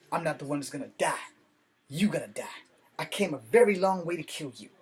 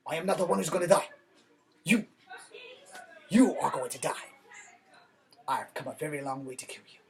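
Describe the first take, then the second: First: Street-style kung fu line, too ghetto to pass as Chinese; ghetto delivery. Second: Faster mock Chinese dub, fading to a whisper at the end; mock dubbed Chinese. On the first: Retelling a dubbed kung fu duel, in a ghetto voice. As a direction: say it like a street tough, not Chinese. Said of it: "That was way too ghetto". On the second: Redoing the duel line as a Chinese dub, mock accent. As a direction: play the dubbed kung fu villain, ending in a whisper. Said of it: "than Chinese". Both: Shown as a demonstration.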